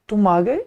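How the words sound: It is said with a surprised, exclamatory tune. The arrival is unexpected. "ये आश्चर्य का भाव है"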